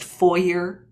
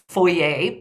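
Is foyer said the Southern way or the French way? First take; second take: Southern; French. First: It is said the Southern American way. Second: It is said the French way.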